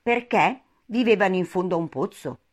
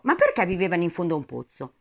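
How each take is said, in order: First: Deliberate question, pause after the first word; repeated question. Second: Quick, puzzled question run together. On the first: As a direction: ask it measuredly, setting "Perché" apart. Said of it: "ripeté la sua domanda". (domanda ripetuta con calma) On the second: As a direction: ask it briskly. Alice's question, first take. (domanda rapida) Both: A narrator's reading.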